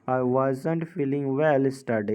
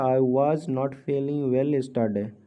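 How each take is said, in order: First: 'Was not' is contracted into one word. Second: 'Was not' is said as two full words.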